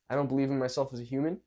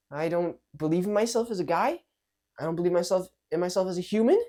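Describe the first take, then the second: First: Level, quicker, self-assured statement; more sure. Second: Higher pitch, rising into a question on "human"; very unsure. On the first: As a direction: say it steadily, at an everyday pitch. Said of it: "one is more sure". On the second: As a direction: doubt yourself, lifting "human" upward at the end. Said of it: "one is very unsure". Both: Shown as a demonstration.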